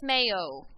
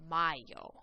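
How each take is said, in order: First: The first syllable sounds like 'may'. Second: The first syllable sounds like 'my'. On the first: The speaker calls it wrong. "Not to be confused with mayo. That is incorrect" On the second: The speaker calls it right. "if an A and a Y are next to each other, it makes an I sound"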